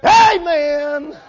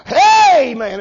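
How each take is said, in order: First: High, drawn-out put-on church cry; mock church talk. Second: Loud, high mock greeting to the crowd; mock worldly crowd talk. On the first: Preacher acting a hypocrite switching to church talk, mock pious cry. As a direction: imitate a showy churchgoer, high and stretched. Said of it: "put on the R B T talk". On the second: Preacher acting a churchgoer with worldly friends, mock hearty greeting. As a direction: imitate hailing your worldly buddies, loudly. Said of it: "talk their talk and their language".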